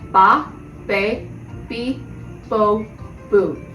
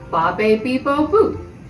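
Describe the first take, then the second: First: The syllables are said at a slower pace. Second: The syllables are said at a faster pace.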